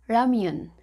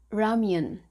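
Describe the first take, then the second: Both takes have the same delivery.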